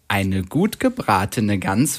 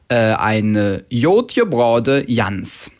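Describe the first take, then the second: First: Initial G is a hard G, standard German. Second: Initial G sounds like a Y, Cologne dialect.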